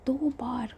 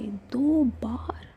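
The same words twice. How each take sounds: First: Said in the usual way. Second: दो बार said very slowly, each word stretched; drawn-out emphasis. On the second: Acted. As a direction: lean on दो बार, drag it out to press her. Raavi presses Shivi. (दो बार को बहुत धीरे खींचकर ज़ोर देना)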